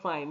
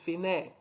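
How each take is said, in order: First: It is pronounced like the English word fine. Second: It is pronounced the Italian way, fee-neh. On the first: The speaker calls it wrong. "Some of you will mistake this for an English word. Don't say fine. It's not fine" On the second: The speaker calls it right. "It's fine. It means the end"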